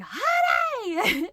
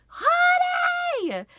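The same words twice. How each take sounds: First: High loud call across the driveway. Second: High, loud alarmed call; shocked shout. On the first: Wife calling husband out of the garage, loud high call. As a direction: shout his name urgently. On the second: Wife calling her husband in the garage, shocked shout. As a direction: yell for help with real alarm. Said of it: "the shock in my voice". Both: Retold or imitated.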